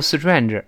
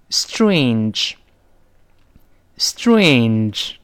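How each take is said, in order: First: "strange" mispronounced like "si-chuan-er", short vowel; wrong strange. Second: "Strange" very slow, with a full ay glide; long diphthong A. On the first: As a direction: add syllables to "strange" and lose the long A. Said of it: "不要读strange". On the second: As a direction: draw "strange" out through ay and n. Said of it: "要读成". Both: Shown as a demonstration.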